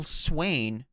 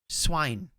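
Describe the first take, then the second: First: The vowel sounds like 'ay' in rain. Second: The vowel sounds like 'eye' in wine. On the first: The speaker calls it right. "Do you mean Swain?" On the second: The speaker calls it wrong. "How do you get swine out of that?"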